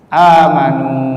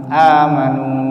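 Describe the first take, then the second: First: A long a vowel runs straight into m. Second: The same.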